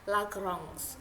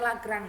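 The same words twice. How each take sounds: First: It is pronounced the French way. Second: It is pronounced the Indonesian way. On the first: The speaker calls it right. "pengucapan yang benar itu adalah Lagrange" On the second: The speaker calls it wrong. "karena kita orang Indonesia bilangnya Lagrange"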